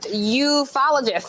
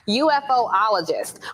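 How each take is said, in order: First: The start is said as one syllable. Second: The start is said as separate letters. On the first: The speaker calls it right. "it's actually pronounced ufologist" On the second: The speaker calls it wrong. "I'm going to mispronounce it first"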